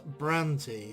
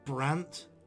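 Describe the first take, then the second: First: The name ends in a vowel sound. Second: The name ends in a consonant. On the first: This is how the makers say the name. "the developers themselves, um, pronounce it as Brandy" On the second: This is how the name comes out in the speaker's accent. "or even Brant with a silent E"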